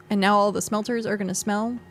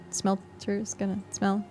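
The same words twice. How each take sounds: First: Said in the usual way. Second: "Smelter's gonna smell" said slowly and softly; slow punchline. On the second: Shown as a demonstration. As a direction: drag out "smell" as the pun lands. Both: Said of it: "Get it?".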